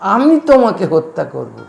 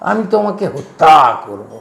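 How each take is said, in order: First: The word hotta carries no special stress. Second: The word hotta carries strong stress. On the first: The speaker calls it right. "তোকে কি বলছে পান্না" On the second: The speaker calls it wrong. "হত্যাটায় জোর দিচ্ছিস কেন?"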